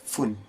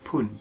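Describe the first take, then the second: First: The word begins with an f sound. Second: The word begins with a p sound. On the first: It follows the numbers two, five, seven or nine. "Fun, menggunakan F" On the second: It follows other numbers such as one, six or ten. "tapi pun, menggunakan P"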